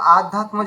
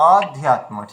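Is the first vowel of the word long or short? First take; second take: long; short. First: The word begins with a long 'aa' vowel. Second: The word begins with a short 'a' vowel. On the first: The speaker calls it wrong. "এখানে আমরা আধ্যাত্ম যেন না বলি" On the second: The speaker calls it right. "ওখানে অ অধ্যাত্ম রয়েছে"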